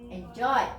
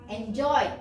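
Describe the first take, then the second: Both takes have the same delivery.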